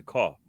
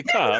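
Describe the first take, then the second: First: "car" with a rounded New York vowel; own New York car. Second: "ka" with open vowel and no r; Boston car. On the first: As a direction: say "car" low, the New Yorker's way. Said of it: "I don't say that as a". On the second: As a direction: drop the r from car, Boston style: "ka". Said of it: "they say". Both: Shown as a demonstration.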